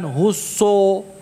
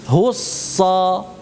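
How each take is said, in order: First: The final vowel is said with rounded lips. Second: The final vowel is said with an open jaw. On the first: The speaker calls it wrong. "Bukan husso so, enggak" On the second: The speaker calls it right. "buka rahangnya sa"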